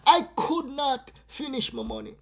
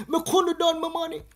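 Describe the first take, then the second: First: Said in the usual way. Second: "Me couldn't done my money" in broad Jamaican patois. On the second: Shown as a demonstration. Explaining the money to viewers, patois version. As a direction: say it the yard way, patois first.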